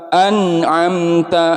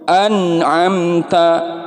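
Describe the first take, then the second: The two takes are said the same way.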